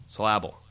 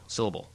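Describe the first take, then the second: First: Syllable as suh-LAB-ul, middle stressed; Syllable misstressed on a broad LAB; stress on wrong syllable. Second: Said in the usual way. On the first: Shown as a demonstration. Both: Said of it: "putting the emphasis on the wrong syllable".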